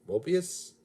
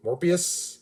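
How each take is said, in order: First: "Mobius?" said without the r, as MOH-bee-us; "Mobius?" as MOH-bee-us, a puzzled question; wrong name. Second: "Morbius?" with a clear r, MOR-bee-us, slowly; slow careful "Morbius?" with MOR, questioning; corrected name. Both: Shown as a demonstration. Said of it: "Oh, no, wait, Mobius is the T V A Owen Wilson".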